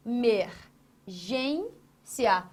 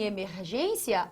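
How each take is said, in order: First: "emergência" very slowly as e, mer, gên, ci-a; syllable by syllable. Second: Said in the usual way. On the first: Shown as a demonstration. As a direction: break "emergência" into separate syllables with pauses. ("emergência" bem devagar, separando as sílabas) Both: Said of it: "Olha onde está a tonicidade".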